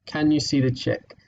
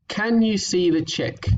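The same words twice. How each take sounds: First: Said in the usual way. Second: Blended read. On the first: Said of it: "I think we can just here". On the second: Shown as a demonstration. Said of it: "so this sentence here".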